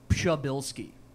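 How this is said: The name is said with a Polish pronunciation. "the Polish pronunciation is"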